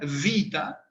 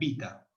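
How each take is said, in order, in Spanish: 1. Empieza con un sonido v labiodental. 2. Empieza con un sonido b. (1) "Como en italiano ... labio dental" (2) "igual que la B"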